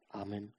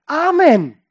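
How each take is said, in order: First: Very soft, low, muted amen; barely audible response; timid congregation amen. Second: Loud, high, resounding amen; ringing shout of affirmation; emphatic congregation amen. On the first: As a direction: mumble it low like a half-hearted congregation. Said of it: "sagt die Gemeinde ... Nein, sie sagt eigentlich". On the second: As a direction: call it out with full conviction. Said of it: "Nein, sie sagt eigentlich". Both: Shown as a demonstration.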